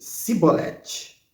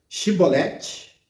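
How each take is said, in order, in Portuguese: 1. A palavra começa com som de 's' simples. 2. A palavra começa com som de 'sh'. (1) "porém ele dizia Sibolete" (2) "a palavrinha mágica era Shibolete"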